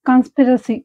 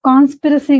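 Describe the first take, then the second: First: The first vowel is short. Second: The first vowel is long. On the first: The speaker calls it right. "So, కన్స్పిరసీ" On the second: The speaker calls it wrong. "కాన్స్పిరసీ గాదు"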